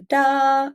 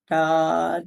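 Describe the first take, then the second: First: High sustained sung "da"; raised pitch. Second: Sustained sung "da" at speaking pitch; base pitch note. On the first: Teacher demonstrates going up in pitch, higher note. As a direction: hold "da" on a higher note, same volume. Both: Shown as a demonstration. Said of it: "I can go up in pitch".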